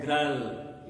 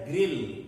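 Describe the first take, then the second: First: "grul" said as gr plus the vowel of girl, a mock wrong take; wrong pronunciation grul. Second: "grill" with a short i, rhyming with fill; grill pronounced correctly. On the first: Teacher shows students the wrong way, a mock "grul". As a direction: show the wrong "grul" deliberately. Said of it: "you don't pronounce it as". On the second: Teacher gives students the correct form: "grill" with short i. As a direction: model the right "grill" plainly. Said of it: "you pronounce it as grill". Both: Shown as a demonstration.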